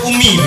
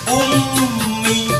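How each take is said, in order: First: The m is short with no nasal hum. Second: The m is held with a long nasal hum. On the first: The speaker calls it wrong. "nggak boleh umi begitu" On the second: The speaker calls it right. "harus dengung dulu"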